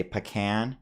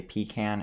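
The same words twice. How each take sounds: First: "pecan" as puh-KAN; gut-reaction pronunciation. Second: "pecan" as PEE-kan; heard pronunciation. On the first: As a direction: say "pecan" with a short unstressed first syllable. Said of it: "my gut reaction is to say". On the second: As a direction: say "pecan" opening on a long PEE. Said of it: "I've heard people say". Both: Shown as a demonstration.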